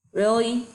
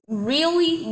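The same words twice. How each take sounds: First: Said in the usual way. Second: Incredulous really. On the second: Real, not acted. Repeats in disbelief.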